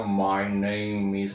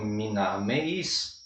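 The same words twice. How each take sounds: First: "my name is" said slowly with diphthongs, "mai neim iz"; modern English pronunciation. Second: "my name is" said slowly as "mi nami is", pure vowels; old English pronunciation. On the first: Teacher demonstrating modern "my name is" after the shift. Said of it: "esse câmbio vocálico fez essas vogais ficar". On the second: Teacher demonstrating old English "my name is". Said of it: "se falava mesmo". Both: Shown as a demonstration.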